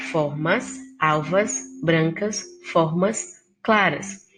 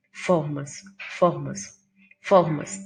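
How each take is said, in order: First: "Formas, alvas, brancas" each with a lingering A; stressing the A. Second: "Formas" each time with a hard F; stressing the F. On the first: Teacher showing the repeated A vowel, stressed. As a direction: draw out the A in every word. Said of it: "uso da vogal A". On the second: Teacher showing the repeated F sound, stressed. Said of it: "repetição da consoante F". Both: Shown as a demonstration.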